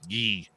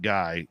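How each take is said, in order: First: The name is said the French way, like 'ghee'. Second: The name is said the English way, rhyming with 'eye'. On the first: The speaker calls it right. "We prefer the Quebec pronunciation" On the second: The speaker calls it wrong. "it's not Guy"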